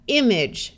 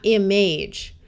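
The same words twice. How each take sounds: First: The final syllable has a reduced 'idge' vowel. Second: The final syllable has a full 'age' vowel. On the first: The speaker calls it right. "it will tend to sound more like idge, like it has a short I" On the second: The speaker calls it wrong.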